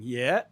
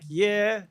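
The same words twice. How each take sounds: First: The pitch rises across the syllable. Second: The pitch stays level across the syllable. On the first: "the fourth one is oh, rising, yeah" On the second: "it's flat, like yeah, straight across"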